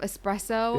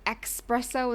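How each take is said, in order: First: The word begins with an 'es' sound. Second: The word begins with an 'ex' sound. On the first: The speaker calls it right. "instead of espresso" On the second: The speaker calls it wrong. "if you say espresso"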